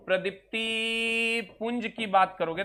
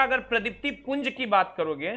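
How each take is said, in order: First: Slower, word by word; slow dictation. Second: Said in the usual way. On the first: Shown as a demonstration. Teacher repeating phrase for students to note, slowly. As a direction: draw it out so they can write.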